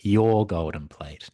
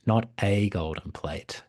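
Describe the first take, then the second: First: YOUR drawn out slowly and firmly; slow, insistent YOUR before "golden plate"; stress on YOUR. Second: Slow, with A said in full as "ay"; "a" stretched into a stressed AY. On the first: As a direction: lean hard on "your", slowly. Frog stresses whose plate it is. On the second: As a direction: set "a" apart as the wrong one. Contrasts any plate with hers. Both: Acted.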